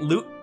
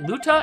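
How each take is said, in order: First: The name ends on a 't' consonant. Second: The name ends with an open 'ah' vowel. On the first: The speaker calls it wrong. "I've been mispronouncing it" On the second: The speaker calls it right. "Is it Luta?"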